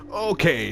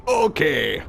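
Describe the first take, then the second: First: Higher lightly voiced dwarf; mock agreement again; Torbjorn okay retake. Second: Higher lightly voiced dwarf; mock agreement; gruff okay. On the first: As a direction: Torbjorn answering Brigitte after the interruption. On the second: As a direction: Torbjorn answering Brigitte. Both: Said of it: "Torbjorn said".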